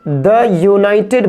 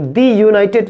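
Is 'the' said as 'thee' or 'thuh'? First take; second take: thuh; thee. First: 'The' is said with a short 'thuh' vowel. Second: 'The' is said with a long 'thee' vowel. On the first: The speaker calls it right. "इस द United बोलेंगे" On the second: The speaker calls it wrong. "इसको द United नहीं बोलेंगे"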